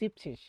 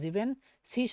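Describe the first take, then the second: First: The word is said with two syllables. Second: The word is said with three syllables. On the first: The speaker calls it right. "শুধুমাত্র জীবশীষ" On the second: The speaker calls it wrong. "সত্তর জায়গায় কিন্তু জীবেন শীষ হয় না"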